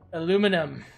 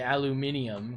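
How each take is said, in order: First: The word is said with four syllables. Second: The word is said with five syllables. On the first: "I said aluminum" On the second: "a bit too many syllables there"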